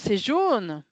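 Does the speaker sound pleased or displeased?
pleased. It is said in a pleased, approving tone. The yellow color is a good thing. "on sent que je trouve c'est très bien que ce soit jaune"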